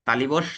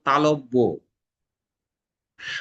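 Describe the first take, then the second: First: The second syllable has an i vowel. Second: The second syllable has an o vowel. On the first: The speaker calls it wrong. "তালিবর্ষ এটা আর বলবো না" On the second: The speaker calls it right. "আমরা এটাকে বলবো তালব্য স"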